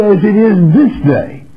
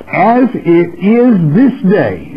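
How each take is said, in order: First: Higher, stress on this; this punched high and falling; preached repeat. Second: Slow, weighted scripture line; slow solemn reading. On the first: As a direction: drive it home to the congregation. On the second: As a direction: read it out slowly and gravely. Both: Shown as a demonstration. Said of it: "And I say to you".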